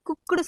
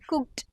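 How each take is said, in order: First: The word ends with an added vowel sound. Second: The word ends on a consonant cluster. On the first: The speaker calls it wrong. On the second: The speaker calls it right.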